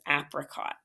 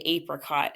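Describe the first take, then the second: First: The first vowel is a short A, as in app. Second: The first vowel is a long A, as in ape. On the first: "if you want the short A, then you would close it in with apricot" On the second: "I did ape because I say apricot"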